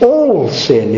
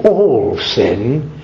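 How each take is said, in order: First: "all sin" with ALL pitched up, then falling firmly; affirming ALL SIN. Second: "all sin" low, rising into a question. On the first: Clergyman assures the dying woman of cleansing, affirming. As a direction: answer with weight on "all", dropping onto "sin". Clergyman answers her question with yes. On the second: Dying woman asks the clergyman if it is true, questioning. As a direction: ask "all sin" with the voice lifting at the end. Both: Retold or imitated.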